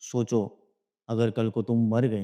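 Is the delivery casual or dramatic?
casual. It is said in a casual, ordinary tone. It is a plain, harmless remark. "मैं तुमको ऐसे भी बोल सकता हूँ"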